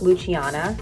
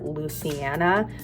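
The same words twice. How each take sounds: First: The c is pronounced as a ch sound. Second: The c is not pronounced as a ch sound. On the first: This is the intended Italian pronunciation. The speaker calls it right. "Italians pronounce the C I like a ch" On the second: This is how people would misread the spelling. The speaker calls it wrong. "people would look at that name and call her Luciana"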